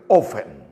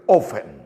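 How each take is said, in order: First: The t sound is left silent. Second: The same.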